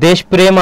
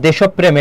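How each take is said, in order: First: দেশপ্রেম said 'desh-prem', two syllables; ভুল উচ্চারণ. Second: দেশপ্রেম said 'deshop-prem'; সঠিক উচ্চারণ. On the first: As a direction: say দেশপ্রেম with no o after sh. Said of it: "প্রেম তো হয় না কখনো". (দেশপ্রেম-কে 'দেশ্-প্রেম', এক প) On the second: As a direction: add o after sh and double p in দেশপ্রেম. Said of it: "দেশপ্রেম এটা হবে". (দেশপ্রেম-কে 'দেশোপ্-প্রেম', দ্বিত্ব প) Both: Shown as a demonstration.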